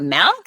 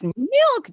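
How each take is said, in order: First: The vowel sounds like the e in 'melk'. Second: The vowel sounds like the i in 'mill'. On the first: The speaker calls it wrong. "It's not milk" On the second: The speaker calls it right. "it's milk. There's an I there"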